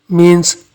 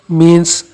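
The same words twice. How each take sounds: No difference in how they are said.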